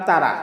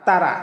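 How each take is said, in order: Both takes have the same delivery.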